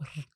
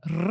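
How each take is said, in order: First: The r is a light, weak sound. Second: The r is a strong, forceful sound. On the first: "o de arara, que é o r, né, mais fraquinho" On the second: "que eu tenho de rato, eu tenho de cachorro, que é forte"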